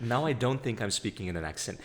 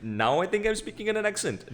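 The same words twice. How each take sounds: First: Said in the usual way. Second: Higher, louder Sri Lankan-accented delivery. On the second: Shown as a demonstration.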